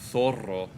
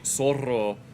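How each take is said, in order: First: The first consonant is a th sound. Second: The first consonant is an s sound. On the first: This is how it is said in Spain. "you say zorro" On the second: This is how it is not said in Spain. "you don't say zorro in Spain"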